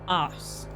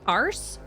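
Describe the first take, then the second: First: The r sound is dropped after the vowel. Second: The r sound is clearly pronounced after the vowel. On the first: "the R coloring is not there for a British accent" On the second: "He went arse"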